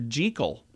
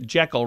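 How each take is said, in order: First: The name does not rhyme with heckle. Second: The name rhymes with heckle. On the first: The speaker calls it right. "Turns out it's actor, actually Doctor Jekyll" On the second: The speaker calls it wrong. "but we say it Jekyll, rhyming with uh, heckle"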